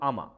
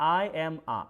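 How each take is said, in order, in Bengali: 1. শব্দগুলো একসাথে মিলিয়ে একটা শব্দের মতো বলা হয়। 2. প্রতিটি শব্দ আলাদাভাবে বলা হয়।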